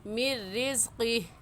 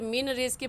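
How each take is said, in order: First: The n merges into a doubled r sound. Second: The n sound is pronounced before the r. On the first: The speaker calls it right. "सही है" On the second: The speaker calls it wrong. "गलत हो जाएगा"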